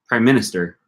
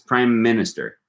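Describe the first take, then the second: First: The M sound between the words is short. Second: The M sound between the words is held long. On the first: The speaker calls it wrong. "It's not" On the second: The speaker calls it right. "You're just holding that M for longer"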